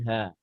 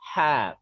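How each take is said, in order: First: The h is a plain, light breath sound. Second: The h is a harsh, breathy sound from the throat. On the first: The speaker calls it wrong. "bukan ha" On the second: The speaker calls it right. "Ha itu di masih huruf dada itu... yang hak besar"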